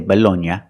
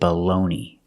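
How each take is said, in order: First: It is said the Italian way, ending in -nya. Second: It is said the American way, ending in -nee. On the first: "In Italian, they say Bologna, something like that" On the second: "in America, we pronounce it baloney"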